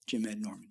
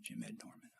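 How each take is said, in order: First: Said in the usual way. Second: A hushed echo of the name; musing to himself. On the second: Retold or imitated. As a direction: repeat the name in quiet disbelief.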